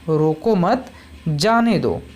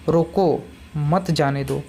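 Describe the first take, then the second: First: The pause comes right after 'mat'. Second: The pause comes right after 'roko'.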